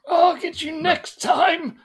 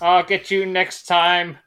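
First: It is said in the character's put-on voice. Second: It is said without the character's put-on voice. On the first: The speaker calls it right. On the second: The speaker calls it wrong.

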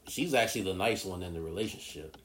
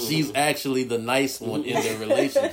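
First: It is said at normal volume. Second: It is said a little louder.

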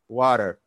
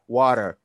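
First: It is said in an American accent. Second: It is said in an American accent.

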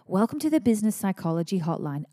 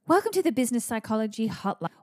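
First: It is said in a calm, normal way. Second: It is said in an overexcited, energetic way.

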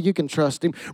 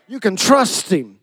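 First: It is said lightly and offhandedly. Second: It is said with deep, heartfelt conviction. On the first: The statement is said without real conviction. The speaker calls it wrong. "Some of y'all did it surface level" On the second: The statement is a sincere personal testimony. The speaker calls it right. "I need you to testify to somebody"

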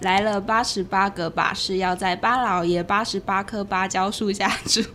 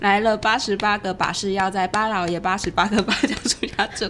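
First: It is recited at a slower pace. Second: It is recited at a faster pace.

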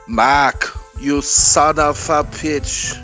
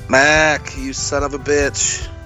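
First: It is said in a heavy Austrian-accented impression. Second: It is said in a plain, ordinary voice. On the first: The speaker calls it right. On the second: The speaker calls it wrong.

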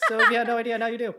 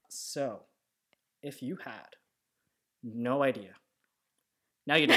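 First: The whole line is said fast. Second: The first half is slow, the second fast.

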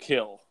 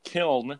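First: The word ends without an n sound. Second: The word ends with an n sound. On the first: This is how locals say the town's name. The speaker calls it right. "They pronounce it there, to kill" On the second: This is how the spelling suggests it is said. The speaker calls it wrong. "It's not kiln"

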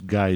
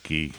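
First: The name is pronounced the English way. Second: The name is pronounced the French way. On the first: This is the hoped-for, American reading. The speaker calls it right. "I hope it's Guy" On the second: This is the foreign reading to avoid. The speaker calls it wrong. "not Guy. I don't know this French shit"

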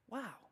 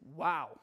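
First: It is said softly and thoughtfully, in admiration. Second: It is said sharply, in shocked disbelief. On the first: The speaker has just heard something wise. "nice and gentle and thoughtful and insightful" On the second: The speaker has just heard something insensitive and foolish. "Or you're going to say it like this"

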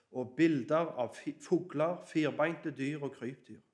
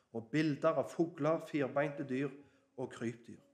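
Both takes have the same delivery.

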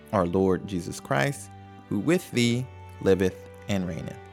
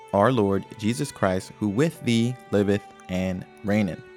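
Both takes have the same delivery.

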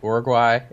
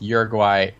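First: The name is pronounced the Spanish way. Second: The name is pronounced the English way. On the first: This is the name as used in the country itself. "Is that actual Spanish name" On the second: This is the name as used by English speakers. "it's Uruguay for English speakers"

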